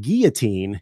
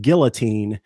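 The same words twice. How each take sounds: First: Put-on guillotine with the l silent, GEE-uh-teen; common pronunciation. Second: Put-on guillotine with the l sounded, GIL-uh-teen; correct pronunciation. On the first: Showing how most people say it, guillotine without the l. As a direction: drop the l from guillotine, French-like. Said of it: "most of us pronounce it". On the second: Teaching co-hosts the correct word, guillotine with a clear l. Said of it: "it's actually pronounced guillotine". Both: Shown as a demonstration.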